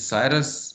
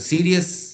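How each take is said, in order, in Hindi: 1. पहला शब्दांश 'sigh' जैसा सुनाई देता है। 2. पहला शब्दांश 'see' जैसा सुनाई देता है। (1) "some people pronounce it साइरस" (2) "some people pronounce it सीरियस"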